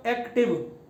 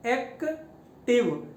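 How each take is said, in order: First: Said in the usual way. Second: active slowly split as एक, then टिव; syllable by syllable. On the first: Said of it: "इसी तरह मैं बोलता हूँ". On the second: Shown as a demonstration. Teacher showing students two syllables, active slowly broken in two. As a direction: clear pause inside active, between एक and टिव. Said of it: "इसमें दो syllable use हुए हैं".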